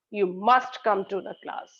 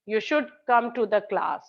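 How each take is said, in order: First: "must" as the most prominent word in the sentence; stress on must. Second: "should" as the most prominent word, falling to the end; stress on should. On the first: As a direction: lean firmly on "must". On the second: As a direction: lean on "should". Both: Shown as a demonstration. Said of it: "So you all know the difference".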